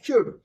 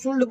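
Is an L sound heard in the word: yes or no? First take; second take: no; yes. First: The L sound is left out of the word. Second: The L sound is pronounced in the word. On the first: The speaker calls it right. "अब शुड बोलना है" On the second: The speaker calls it wrong. "तो वो गलत pronunciation है"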